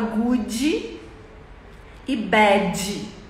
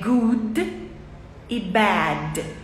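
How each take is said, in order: First: The words end with an added dj sound. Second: The words end with a plain d sound. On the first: This is how Brazilians say it. The speaker calls it wrong. "Transforma o som de D em D J" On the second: This is the correct English way. The speaker calls it right. "É good e bad"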